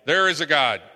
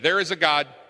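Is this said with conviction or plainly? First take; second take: conviction; plainly. First: It is said firmly, with strong conviction. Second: It is said plainly, without strong conviction.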